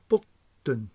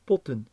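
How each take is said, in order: First: The t in the middle is held, said twice. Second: The t in the middle is said once, short. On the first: The speaker calls it wrong. "not potten" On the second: The speaker calls it right. "So we read potten"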